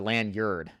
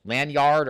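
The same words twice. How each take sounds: First: Lanyard as LAN-yerd, weak second syllable; reduced-vowel lanyard. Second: Lanyard as LAN-YARD, slow and loud; full-vowel Lanyard. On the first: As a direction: shrink the end of lanyard to yerd. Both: Shown as a demonstration. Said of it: "Lanyard or lanyard?".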